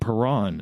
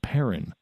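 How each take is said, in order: First: The name is said with a French pronunciation. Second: The name is said with an English pronunciation. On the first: "I kept on saying Perron instead of" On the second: "instead of Perrin"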